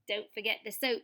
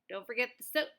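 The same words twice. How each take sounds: First: It is said in an attempted Australian accent. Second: It is said in the reader's plain accent.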